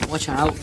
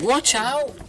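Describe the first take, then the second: First: Said in the usual way. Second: High warning cry of watch out; warning shout. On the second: Shown as a demonstration. Reader jokes about skeleton armbands, high warning shout. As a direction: call out a sudden warning, higher. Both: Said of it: "Get it?".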